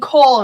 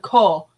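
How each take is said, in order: First: The syllable ends with an L sound. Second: The syllable ends on a plain vowel. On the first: The speaker calls it wrong. "you're saying coal instead of ko" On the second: The speaker calls it right. "It's just ko. K O"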